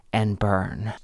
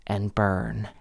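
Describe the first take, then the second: No difference in how they are said.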